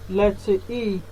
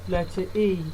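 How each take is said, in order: Both takes have the same delivery.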